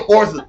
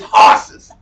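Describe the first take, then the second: First: The word is said plainly, without extra force. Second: The word is said with strong, forceful emphasis. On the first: The speaker calls it wrong. "You just don't say horses" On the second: The speaker calls it right. "It makes it like more stronger"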